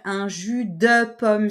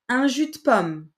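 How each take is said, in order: First: Every syllable is pronounced fully and carefully. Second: The 'de' is reduced and runs into 'pomme'. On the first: No one actually says it this way. The speaker calls it wrong. "Il y a personne qui va dire" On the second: This is how people actually say it. The speaker calls it right. "On va dire"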